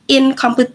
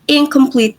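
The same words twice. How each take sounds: First: The first nasal sounds like a plain 'n'. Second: The first nasal sounds like 'ng' before k. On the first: The speaker calls it wrong. "So it's not like incomplete, but the N turns into ung" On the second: The speaker calls it right. "we pronounce it as incomplete"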